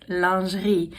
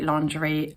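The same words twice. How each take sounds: First: The word is pronounced the French way. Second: The word is pronounced the anglicized way. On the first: The speaker calls it right. "which is pronounced lingerie" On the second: The speaker calls it wrong. "the way I say lingerie"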